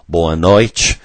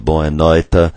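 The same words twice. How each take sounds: First: The t in noite sounds like ch. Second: The t in noite is a plain t. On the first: This is how it is said in southern Brazil. "in southern Brazil" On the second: This is how it is said in Portugal. "if you were in Portugal"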